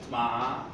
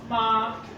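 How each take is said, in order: First: The pitch rises from middle to high. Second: The pitch stays high and level.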